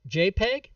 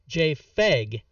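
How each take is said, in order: First: The middle consonant is a P sound. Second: The middle consonant is an F sound.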